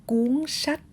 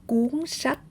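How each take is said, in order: No difference in how they are said.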